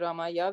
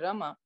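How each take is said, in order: First: It ends with an added 'ya' syllable. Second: It ends on 'ma' with no added syllable. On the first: The speaker calls it wrong. "but we don't say Ramaya" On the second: The speaker calls it right. "we say Rama"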